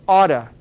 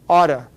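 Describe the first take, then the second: First: The words are said fast, blended into one. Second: The same.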